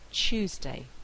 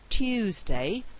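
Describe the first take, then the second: First: The t and y merge into ch. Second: The t and y sounds stay separate.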